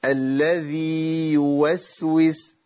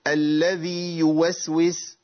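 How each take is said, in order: First: الذي with the ي held long, then يوسوس apart; very slow recited tajweed; correct recitation. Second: الذي يوسوس with the ي doubled into يوسوس, no madd; slow demo of the error; wrong merged reading. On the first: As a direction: give الذي its full madd before يوسوس. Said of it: "أمال الصح إيه؟". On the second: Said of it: "ده خطأ، ده خطأ". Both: Shown as a demonstration.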